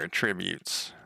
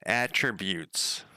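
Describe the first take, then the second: First: "attributes" with the stress on TRIB; "attributes" stressed like the verb, on the second syllable. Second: "Attributes" slowly, with the stress on AT; stress on first syllable. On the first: Real, not acted. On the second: Shown as a demonstration. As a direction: say "Attributes" as AT-trib-yoots, drawn out. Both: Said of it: "I never pronounce it, anything right".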